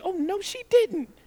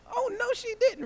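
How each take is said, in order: First: Higher, sassy mock outrage. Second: Much higher, hammed-up sassy outrage; sassier oh no. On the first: Preacher mocking his own shocked reaction in line, sassy. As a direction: play it as a scandalized onlooker. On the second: Preacher repeating his shocked reaction, hammed-up sassy. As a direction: push the scandalized voice way up.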